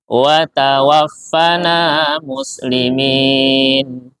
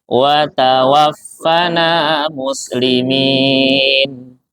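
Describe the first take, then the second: Both takes have the same delivery.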